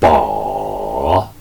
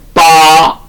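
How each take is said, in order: First: The pitch dips low, then rises. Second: The pitch stays high and level. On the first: "제삼성은 더 내려갔다 올라갑니다" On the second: "반드시 제일성은 빠 산 도끼 산 할 때처럼"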